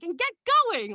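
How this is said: It is said in an over-excited way.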